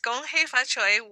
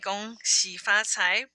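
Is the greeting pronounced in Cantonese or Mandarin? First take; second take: Cantonese; Mandarin. First: The greeting is pronounced the Cantonese way. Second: The greeting is pronounced the Mandarin way. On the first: "used longer in America through because of Cantonese immigration" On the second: "it's the Mandarin pronunciation"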